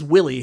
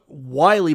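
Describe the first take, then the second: First: The first vowel rhymes with 'silly'. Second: The first vowel rhymes with 'eye'. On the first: The speaker calls it right. "but it is Willie" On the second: The speaker calls it wrong. "I call it Wiley"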